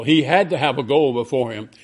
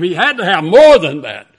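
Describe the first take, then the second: First: Said in the usual way. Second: Full-force pulpit cry; loud preaching climax. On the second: Acted. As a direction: shout it out, higher and louder. Climax of repeated phrase.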